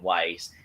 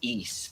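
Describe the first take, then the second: First: It sounds like the English word 'wise'. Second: It sounds like the English word 'east'. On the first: The speaker calls it wrong. "I always pronounce it as Wise" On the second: The speaker calls it right. "Turns out it's pronounced as East"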